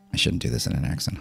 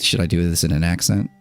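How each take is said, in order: First: Breathy whisper to himself, softer; a private whispered aside. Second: Said in the usual way. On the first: Real, not acted. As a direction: talk yourself out of it under your breath. Muttered answer to himself.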